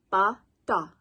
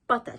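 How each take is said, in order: First: "Bata" split into two beats, ba, ta; syllable by syllable. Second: Said in the usual way. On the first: Shown as a demonstration. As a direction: sound out "Bata" one syllable at a time. Teacher breaks the word into syllables.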